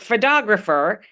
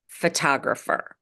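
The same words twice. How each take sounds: First: The T is a soft, D-like flap. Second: The T is a crisp, released T sound. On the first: The speaker calls it wrong. "Not photographer... sounds wrong" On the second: The speaker calls it right. "We must pronounce it as a true T"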